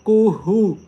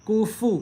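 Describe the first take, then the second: First: कुहू with an h in place of f; कुहू said the wrong way with h; wrong ha sound. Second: कुफू with a clear f; कुफू, the f plainly voiced; clear f sound. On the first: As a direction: say कुहू, dropping the f for h. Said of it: "हा की आवाज़ निकाल रहे होते हैं". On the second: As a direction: say कुफू with a crisp f. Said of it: "फा की आवाज़ निकाली जाएगी". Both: Shown as a demonstration.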